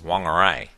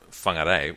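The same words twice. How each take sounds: First: The word does not begin with an F sound. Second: The word begins with an F sound. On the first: This is the old way of saying it. "the old pronunciation for Whangarei was Whangarei, which just sounds wrong to me" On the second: This is how most people say it now. "the vast majority of people will pronounce WH as F"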